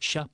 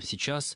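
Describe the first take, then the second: First: The word is shortened to one syllable. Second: The word is said with both syllables. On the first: A casual, careless way of speaking. The speaker calls it wrong. "не будет говорить «сейчас», «ща» просто" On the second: A careful way of speaking. The speaker calls it right. "скорее скажет"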